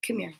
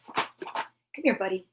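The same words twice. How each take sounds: First: Said in the usual way. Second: Soft unvoiced whisper to the puppy. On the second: Real, not acted. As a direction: whisper it to coax the dog close. Coaxing puppy, two takes.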